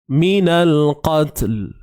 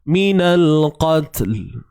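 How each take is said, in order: First: The final 'l' sound is clearly pronounced. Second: The final 'l' sound is clearly pronounced.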